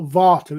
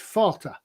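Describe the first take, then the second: First: The word begins with a V sound. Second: The word begins with an F sound. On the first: The speaker calls it wrong. "so it's not Vater" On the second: The speaker calls it right. "a V is pronounced like an F"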